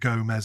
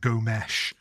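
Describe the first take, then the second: First: The name ends with an s sound. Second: The name ends with an sh sound. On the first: The speaker calls it wrong. "instead of Gomez" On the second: The speaker calls it right. "it's like Gomesh"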